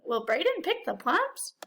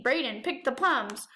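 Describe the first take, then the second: First: Rising question tune, lifted on "plums"; asking. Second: Falling tune that drops on "plums"; telling, not asking. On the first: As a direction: ask it clearly, sending "plums" up at the end. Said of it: "No, we're asking". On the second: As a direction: say it as a statement, closing down on "plums". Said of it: "We're not saying". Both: Shown as a demonstration.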